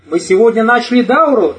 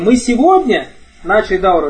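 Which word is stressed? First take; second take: дауру; сегодня. First: The word дауру carries the main stress. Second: The word сегодня carries the main stress. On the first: The point is what was started. "Речь о чем идет? О дауре" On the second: The point is when it was started. "Потому что мы сегодня, а не вчера начали"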